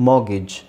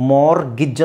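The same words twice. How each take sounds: First: "ಮಾಗಿಜ್" as "maw-gij", no R, no T; lower, open vowel before G in "ಮಾಗಿಜ್"; silent R. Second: "ಮಾರ್ಗಿಜ್" as "mor-gij", R heard, no T; sounded R. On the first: Teacher showing the other mortgage, silent R. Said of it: "ಇಲ್ಲಿ ಆರ್ silent ಆಗಿರುತ್ತೆ". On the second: Teacher showing optional R in mortgage, sounded R. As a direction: roll into G from an audible R in "ಮಾರ್ಗಿಜ್". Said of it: "ನೀವು silent ಮಾಡ್ಬೋದು, ಬಿಡ್ಬೋದು". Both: Shown as a demonstration.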